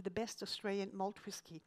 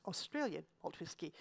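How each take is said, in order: First: Said in the usual way. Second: Pointed stress on Australian as a wry correction. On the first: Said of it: "I emphasize Australian malt whisky". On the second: Shown as a demonstration. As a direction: lean on the word Australian, hitting it hardest. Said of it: "I emphasize".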